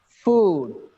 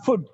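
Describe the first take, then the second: First: The vowel is long. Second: The vowel is short. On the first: The speaker calls it right. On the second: The speaker calls it wrong.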